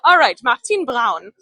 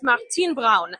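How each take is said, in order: First: Louder, mock German accent on "Martin Braun"; name it in a playful German accent; hammed-up German accent. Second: "Martin Braun" with German B-r and rolled diphthong "prauñ"; German pronunciation. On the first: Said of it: "I'm just gonna say everything in the German accent". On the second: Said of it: "in German it's Martin Braun". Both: Shown as a demonstration.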